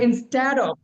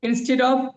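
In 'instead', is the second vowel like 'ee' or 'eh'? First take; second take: eh; ee. First: The second syllable has an 'eh' vowel. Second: The second syllable has an 'ee' vowel. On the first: The speaker calls it right. "এটা হলো ইনস্ট্যাড of" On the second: The speaker calls it wrong. "আমরা কি বলে এটাকে ইনস্টিট করছি না সারা জীবন?"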